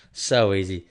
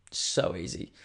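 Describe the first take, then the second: First: Louder, punchy repeat; emphatic. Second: Breathy whispered aside; hushed murmur, then punch it next take. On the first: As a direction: hit it hard the second time. Repeats the phrase, then loud. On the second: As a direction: say it under your breath, smug. Repeats the phrase, first hushed. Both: Acted.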